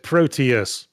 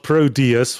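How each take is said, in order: First: The middle consonant is a crisp T sound. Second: The middle consonant sounds like a soft D. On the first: "pronouncing the T as the English accent does" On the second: "with a D"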